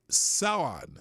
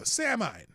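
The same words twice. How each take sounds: First: Samhain said as "SOW-in"; correct Samhain pronunciation. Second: Samhain said as "SAM-hine"; mispronounced Samhain. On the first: Shown as a demonstration. Host repeats Mike's help with the name, Samhain pronounced "SOW-in". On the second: Real, not acted. Host tries reading the unfamiliar festival name, Samhain mispronounced "SAM-hine". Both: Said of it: "it's pronounced Samhain".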